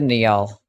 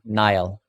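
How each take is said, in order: First: The name is read out letter by letter as spelled. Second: The name is said as one syllable, like Nile. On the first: "I'm gonna pronounce it phonetically" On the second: "It's pronounced Nile?"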